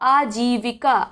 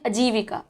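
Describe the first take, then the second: First: The first vowel is long. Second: The first vowel is short. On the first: The speaker calls it right. "सही क्या उच्चारण होगा आजीविका, बड़ा आ" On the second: The speaker calls it wrong. "बहुत लोग बोलते हैं अजीविका, अजीविका गलत है"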